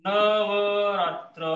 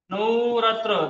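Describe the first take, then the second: First: Navratra dragged out very slowly; slow dictation of Navratra; slowed demo. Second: नऊ रात्र said as two words, व turned to उ; teacher shows नऊ रात्र as two words; split into नऊ. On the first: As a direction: stretch every syllable of Navratra. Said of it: "थोडंसं मोठं अक्षर काढतो". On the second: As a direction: say नऊ then रात्र, slowly. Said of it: "व च्या ऐवजी उ काढलंय मी". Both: Shown as a demonstration.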